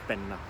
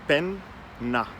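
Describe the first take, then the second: First: The word is said smoothly as one word. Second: The word is split into two separate parts. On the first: "it becomes one one single word" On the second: "pronounce the word as two separate words"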